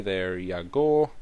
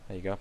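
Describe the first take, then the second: First: Slow, drawn-out mock Scottish-Irish accent; a muddled half-Scottish, half-Irish lilt, dragged out slowly; weird Scottish-Irish accent. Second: Said in the usual way. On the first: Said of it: "a mix of Scottish and Irish and stupid". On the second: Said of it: "That was a weird accent".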